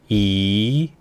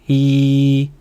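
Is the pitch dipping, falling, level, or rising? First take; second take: rising; level. First: The pitch rises from mid to high. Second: The pitch stays high and level. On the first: "이성은 올려주세요" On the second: "1성은 평평하게 발성하면 돼요"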